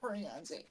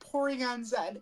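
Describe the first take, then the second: First: The Z is not said the English-Canadian way. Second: The Z is said the English-Canadian way. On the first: "and not" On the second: "if the person is English or can or Canadian, they've always said"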